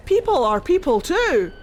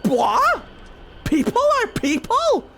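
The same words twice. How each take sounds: First: Mildly raised, earnest plea; lightly voiced Mythal pleading; pleading goddess. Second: High, loud mocking disbelief on "people"; scornful gods. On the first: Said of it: "Mythal was like". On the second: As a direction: sneer the question at her. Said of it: "the Evan Uris were like".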